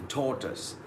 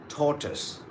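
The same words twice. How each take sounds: The two takes are said the same way.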